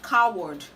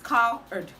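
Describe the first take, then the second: First: A w sound is heard in the middle. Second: No w sound is heard in the middle. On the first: The speaker calls it wrong. "This word is commonly pronounced coward" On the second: The speaker calls it right. "the W in that word is silent"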